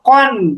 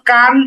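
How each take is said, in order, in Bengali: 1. স্বরটি একটি ভারী, গোলাকার 'o' ধ্বনি। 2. স্বরটি একটি খোলা, দীর্ঘ 'aa' ধ্বনি। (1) "বরং কফ দুই জবর কন" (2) "কফ দুই জবর কান এমন না"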